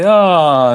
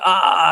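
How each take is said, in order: First: It is said as a tired yawn. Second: It is bawled as a cry of pain.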